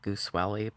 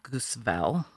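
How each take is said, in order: First: The surname is given a local American pronunciation. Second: The surname is given a German-style pronunciation. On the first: This is how locals in Missouri would have said it. "I'm sure they said Goosewelly" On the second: This is how the original German name would sound. "this has to be German, which would be Goosewell"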